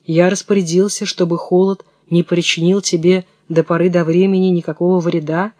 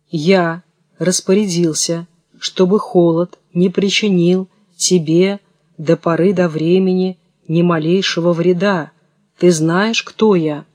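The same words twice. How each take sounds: First: A hint of a thin, ringing voice; lightly voiced thin voice, flowing evenly. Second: Distinct, as if dictating. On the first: An unseen old man answers the boy's question, mildly thin and ringing. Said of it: "ответил кто-то тоненьким, звонким голосом". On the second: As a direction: recite it smoothly like dictation from a book. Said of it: "повторил отчётливо, гладко, как будто он читал по книжке или диктовал". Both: A narrator's reading.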